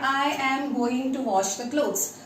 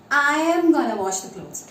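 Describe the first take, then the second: First: 'Going to' is said in full. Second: 'Going to' is reduced to 'gonna'.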